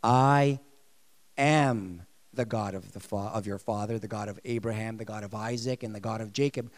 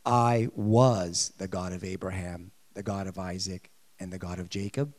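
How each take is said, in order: First: God speaking present tense. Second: Booming God quoting Exodus, past tense; God speaking wrong tense. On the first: Preacher voicing God correcting tense, deep and solemn. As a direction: intone it as God himself, now. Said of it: "God is saying this". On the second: Preacher voicing God to congregation, deep and solemn. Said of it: "he didn't say this". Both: Retold or imitated.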